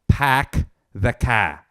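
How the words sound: The r sounds are dropped. "they go"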